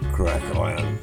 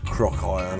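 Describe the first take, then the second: First: The first word has the vowel of 'crack'. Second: The first word has the vowel of 'crock'. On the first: The speaker calls it wrong. "Did say it wrong" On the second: The speaker calls it right. "Or should I say Crock Iron? That's Crock Iron, I got it"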